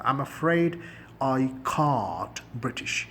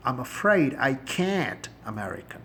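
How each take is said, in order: First: Can't with a broad British ah, slow; British accent. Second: Can't with the flat American a, slow; American accent. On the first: Teacher contrasting British can't with American, slowly. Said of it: "British لہجہ بن جائے گا". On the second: Teacher contrasting American can't with British, slowly. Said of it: "can't بولیں گے تو آپ American". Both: Shown as a demonstration.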